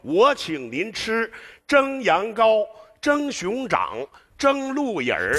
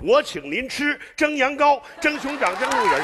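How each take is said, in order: First: It is recited slowly. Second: It is recited quickly.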